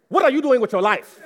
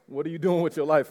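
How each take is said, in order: First: High, loud mock-motherly outburst; comically indignant, raised voice; exasperated mock demand. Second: Said in the usual way. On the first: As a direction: shout it like a fed-up parent. Translates his mother's message, comically.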